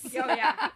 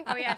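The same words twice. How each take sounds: First: Helium voice. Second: Said in the usual way. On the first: Pretend. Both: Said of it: "She's, like, sucking helium".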